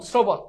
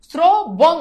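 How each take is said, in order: First: Said in the usual way. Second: "শ্রবণ" in two separate beats, sro, bon; louder, drawn-out o in "শ্রবণ"; ভাঙা উচ্চারণ. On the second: Shown as a demonstration. ("শ্রবণ" স্রো, বোন, থেমে থেমে) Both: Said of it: "ওকার কিন্তু উচ্চারিত হচ্ছে".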